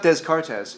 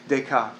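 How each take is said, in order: First: The final letters of the name are pronounced. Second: The final letters of the name are silent. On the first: The speaker calls it wrong. "It's not Descartes" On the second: The speaker calls it right. "it's Descartes. ... a third of the language is silent"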